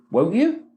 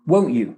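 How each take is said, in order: First: WON'T YOU rising at the end; question tag. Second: WON'T YOU falling at the end; lower, falling WON'T YOU; command tag. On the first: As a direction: lift YOU upward as a question. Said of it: "go up again with an accent". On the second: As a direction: drop YOU downward as a command. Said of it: "a command". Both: Shown as a demonstration.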